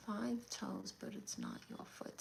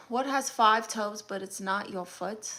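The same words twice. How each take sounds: First: Very quiet, half-whispered repeat; murmuring to oneself. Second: Said in the usual way. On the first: Real, not acted. Streamer puzzling over a viewer's riddle, murmured to herself. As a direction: think it over under your breath.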